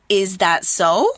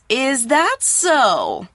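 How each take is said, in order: First: The voice rises at the end. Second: The voice falls at the end. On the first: Asking whether what was said is correct. "we go up at the end like this" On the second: Showing disbelief in what was said. "we don't go up at the end like we did in the first time"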